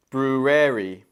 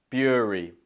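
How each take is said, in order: First: "Brewery" as broo-RARE-ee; full rare sound in the middle of "Brewery"; wrong brewery. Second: "Brewery" in two syllables, BROO-ree; two-sound "Brewery", falling; correct brewery. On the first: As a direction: mispronounce "Brewery" in three syllables. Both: Shown as a demonstration. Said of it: "Option A".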